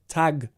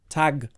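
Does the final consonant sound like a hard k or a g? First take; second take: g; g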